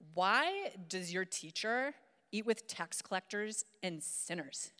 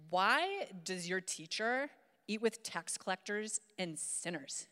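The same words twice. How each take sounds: First: It is read in a put-on teenage girl voice. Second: It is read in a put-on teenage girl voice.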